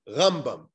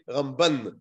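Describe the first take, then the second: First: The stress is on the first syllable. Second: The stress is on the last syllable. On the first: It refers to Rabbi Moshe ben Maimon. "the emphasis is on the first syllable" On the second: It refers to Rabbi Moshe ben Nachman. "the emphasis is on the last syllable"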